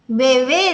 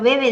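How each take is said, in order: First: The stress is on the last syllable. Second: The stress is on the first syllable. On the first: It means a small child. "Bebé de niño pequeño sí" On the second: It means someone drinks. "Pero bebe de beber agua no"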